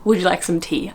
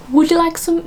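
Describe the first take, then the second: First: Said in the usual way. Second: High-pitched attempt at posh royal English; the Queen's accent. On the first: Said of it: "So what should I say?". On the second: Shown as a demonstration. Trying out the Queen's sentence about tea, posh RP accent. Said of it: "it's the Queen".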